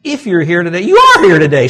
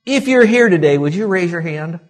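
First: Loud, firm assertion that they are here; firm declaration, voice raised on are; emphatic statement. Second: Mock questioning with high pitch; mock silly question. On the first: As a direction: state it as plain fact, louder. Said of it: "See how stupid that is?". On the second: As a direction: ask it as if it were a dumb question. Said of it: "it'd be like me saying this". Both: Shown as a demonstration.

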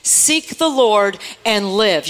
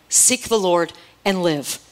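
First: Very slow, drawn-out refrain with the congregation; slow call and response. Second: Seek the Lord and live, slow and weighty; slow emphatic refrain. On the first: Preacher leading the church to repeat slowly after her. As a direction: stretch every word so they can say it with you. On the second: Preacher leading the church in a slow chant. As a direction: lay each word down slowly for the room to echo. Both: Shown as a demonstration. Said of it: "Say it with me".

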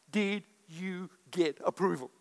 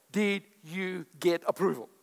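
Both takes have the same delivery.

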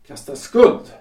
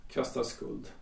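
First: Loud, rising "Kastar skuld" with "skuld" hit hard; an offended husband protesting out loud; indignant outburst. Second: Barely voiced, stunned repetition of "Kastar skuld"; a stung husband murmuring her words back; muttered to himself. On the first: Acted. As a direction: fling "Kastar skuld" back at her, louder, ending on a rise. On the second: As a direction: turn "Kastar skuld" over under your breath, almost silent. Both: Husband repeats her accusing words.

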